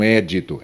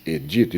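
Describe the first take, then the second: First: "édito" stressed on É; stress on first syllable. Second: "edito" stressed on DI; paroxytone stress. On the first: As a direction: say "édito" as the rejected É-di-to. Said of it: "não édito". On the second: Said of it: "a lei seria paroxítona". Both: Shown as a demonstration.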